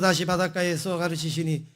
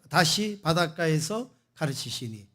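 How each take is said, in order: First: It is read flatly, without stress or melody. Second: It is read with varied stress and intonation. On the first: The meaning is unclear to listeners. The speaker calls it wrong. "이러면은요 이게 무슨 말인지 몰라요" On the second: The meaning comes across clearly. The speaker calls it right. "다르잖아요"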